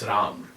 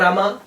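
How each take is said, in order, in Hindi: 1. नाम अंतिम व्यंजन पर समाप्त होता है। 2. नाम के अंत में एक अतिरिक्त स्वर की ध्वनि है। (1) "it's Ram, not Rama" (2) "Lots of people say Rama"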